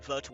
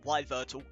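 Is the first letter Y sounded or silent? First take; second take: silent; sounded. First: The name starts with a silent Y. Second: The name starts with a sounded Y. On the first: The speaker calls it right. "like the Y is silent" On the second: The speaker calls it wrong. "that just doesn't sound right"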